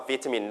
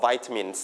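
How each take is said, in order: First: วิตามิน with a short "vit" first syllable; British-style วิตามิน, short i as in "sit"; British pronunciation. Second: Vitamins with a long "vai" first syllable; vitamins opening like the word "vie"; universal pronunciation. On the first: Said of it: "ถ้าเป็น British จะออก". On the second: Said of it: "หลักๆแล้วจะออกว่า". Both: Shown as a demonstration.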